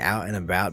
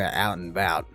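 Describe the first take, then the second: First: The first vowel of 'about' is clearly pronounced. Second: The first vowel of 'about' is dropped. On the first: The speaker calls it right. "we definitely pronounce the A" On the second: The speaker calls it wrong. "we don't go out and about"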